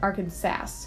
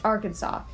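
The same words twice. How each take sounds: First: The name is said as it is spelled. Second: The name is said the standard way. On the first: The speaker calls it wrong. "the more phonetic pronunciation Arkansas" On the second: The speaker calls it right. "I mispronounced Arkansas"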